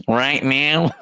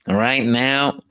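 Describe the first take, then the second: First: Lightly imitating a military spokesman; a hint of a stiff spokesman voice; mock spokesman. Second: Cracking up mid-imitation; laughing through the words. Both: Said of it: "he would still be able to say".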